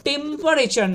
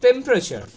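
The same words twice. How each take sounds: First: টেম্পারেচার as "tem-pa-re-char"; every syllable of টেম্পারেচার sounded; slow, higher, wrong-way টেম্পারেচার; common mispronunciation. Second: টেম্পারেচার squeezed to "TEM-pra-cha"; louder, compact টেম্পারেচার; correct pronunciation. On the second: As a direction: drop the middle vowel in টেম্পারেচার. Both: Shown as a demonstration. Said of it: "টেম্পারেচার নয়".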